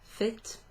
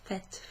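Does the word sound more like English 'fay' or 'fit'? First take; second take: fit; fay. First: It sounds like 'fit', ending in a t. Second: It sounds like 'fay', with no final t. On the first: "Sometimes you're going to hear that pronounced fit with an A kind of sound" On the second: "Sometimes it'll sound a bit more like fait"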